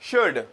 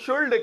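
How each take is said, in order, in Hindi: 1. शब्द में L की आवाज़ साइलेंट है। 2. शब्द में L की आवाज़ बोली जाती है। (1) "एल जो है इसमें ये थोड़ा साइलेंट है" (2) "बहुत सारे लोग इसको शुल्ड कहते हैं, ऐसा नहीं है।"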